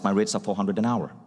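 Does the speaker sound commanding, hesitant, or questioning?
commanding. It is said firmly and steadily, falling at the end. Take it or leave it. The speaker calls it right. "the most commanding one"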